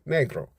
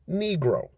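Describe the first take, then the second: First: The word is said with a Spanish pronunciation. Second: The word is said with an English pronunciation. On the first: "in the Spanish accent" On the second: "The English pronounce that word"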